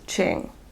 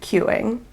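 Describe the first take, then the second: First: The name begins with a ch sound. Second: The name begins with a kyoo sound. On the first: The speaker calls it right. "it's pronounced Ching" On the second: The speaker calls it wrong. "I pronounced it queuing"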